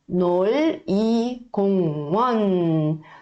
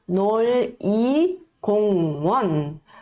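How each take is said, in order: The two takes are said the same way.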